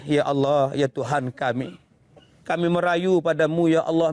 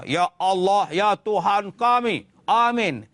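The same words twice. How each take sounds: First: Low, imploring lament to God; pleading prayer. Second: Firm, slowed demanding prayer; rough praying. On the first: Preacher shows how to beseech God, low pleading voice. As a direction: plead humbly in a lowered voice. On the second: Preacher shows the wrong way to pray, rough and blunt. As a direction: pray bluntly, without any pleading. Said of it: "Jangan guna kasar". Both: Shown as a demonstration.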